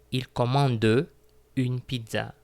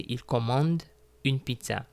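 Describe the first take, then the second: First: The final e of commande is pronounced. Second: The final e of commande is silent. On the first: The speaker calls it wrong. "I am not saying" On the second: The speaker calls it right. "I say"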